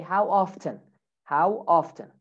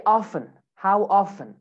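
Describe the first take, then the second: First: American "often" with the T sounded; American pronunciation. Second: British "often" with silent T; British pronunciation. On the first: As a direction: say "often" as OFF-ten. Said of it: "In American accent". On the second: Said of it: "In British accent". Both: Shown as a demonstration.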